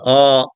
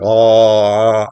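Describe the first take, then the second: First: The vowel is open and plain, not throaty. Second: The vowel is strongly throaty and backed. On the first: "if I say ah" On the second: "make it a bit more throaty"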